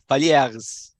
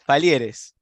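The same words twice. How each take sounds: First: The name is pronounced the French way. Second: The name is pronounced the Spanish way. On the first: "in French it's Palieres" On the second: "here in Argentina we call it in Spanish way"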